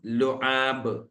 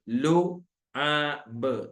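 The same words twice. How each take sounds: First: Said in the usual way. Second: ലുആബ് drawn out very slowly, the vowels held long; teacher's slow model of ലുആബ്; very slow demo. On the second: Shown as a demonstration. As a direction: stretch ലുആബ് slowly for learners to copy. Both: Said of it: "ലുആബ് എന്നാണ് ട്ടോ".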